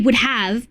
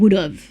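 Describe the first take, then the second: First: Both words are said fully and separately. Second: The words are run together in a reduced form. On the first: This is how it is written. "That's what I would type. And it would be would have" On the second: This is how Australians actually say it. "but we pronounce it would have"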